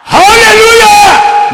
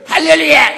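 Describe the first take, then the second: First: It is shouted very loudly from the belly. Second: It is said weakly, without real loudness.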